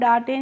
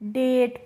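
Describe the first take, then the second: First: It is said as two syllables, daa-tay. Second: It is said as one syllable, dayt. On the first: The speaker calls it wrong. "इसको हम डाटे नहीं पढ़ते हैं" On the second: The speaker calls it right. "डेट पढ़ते हैं"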